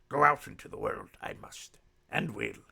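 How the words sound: It is said in a Yoda impression voice.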